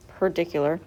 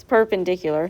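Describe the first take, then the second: First: "perdicular" with the "pen" syllable missing; misspelled perpendicular. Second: Said in the usual way. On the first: Shown as a demonstration. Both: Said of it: "that's not even spelled right".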